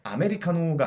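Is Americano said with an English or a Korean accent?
Korean. It is said with Korean loanword sounds. The speaker calls it wrong. "아니라"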